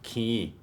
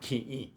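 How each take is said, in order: First: The vowel is one long, smooth stretched sound. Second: The vowel is split by a short stop. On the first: This is how it sounds in fast speech. The speaker calls it wrong. "when we say it in fast speech, we say key. We sort of just say e, but stretch it" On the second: This is how the word really is. The speaker calls it right. "But really, there's a stop in between"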